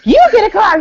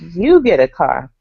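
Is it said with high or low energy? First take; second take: high; low. First: It is said with high, excited energy. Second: It is said with low, flat energy.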